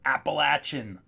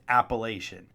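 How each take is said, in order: First: The word is pronounced the southern way. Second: The word is pronounced the northern way. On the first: "like they say down south" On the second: "That's the right way to say it"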